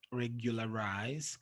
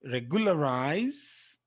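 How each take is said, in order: First: Regularize low and soft, rising at the end; quiet repeat. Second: Regularize slow and full-voiced, rising at the end; slow model pronunciation. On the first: Teacher repeating an exception word, regularize softly and lower. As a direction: drop the voice and repeat regularize lightly. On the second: Teacher modelling an exception word, Regularize slowly and clearly. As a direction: sound out Regularize slowly, lifting the last syllable. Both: Shown as a demonstration.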